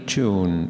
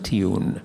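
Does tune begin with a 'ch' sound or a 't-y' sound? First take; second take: ch; t-y. First: It begins with a merged 'ch' sound. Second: It begins with separate 't' and 'y' sounds. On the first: "What a lovely tune" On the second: "rather than tune"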